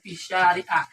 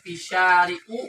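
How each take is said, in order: First: The word ends with an a vowel. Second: The word ends with a u vowel.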